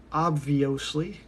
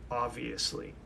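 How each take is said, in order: First: "Obviously" drawn out with misplaced emphasis and a rise; odd emphasis. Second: Said in the usual way. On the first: Shown as a demonstration. Answering his own question about what he's doing, oddly stressed "Obviously". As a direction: stretch "Obviously" slowly, stressing the wrong syllable. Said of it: "put the emphasis on the wrong syllable". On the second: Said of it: "Sir, it's pronounced obviously".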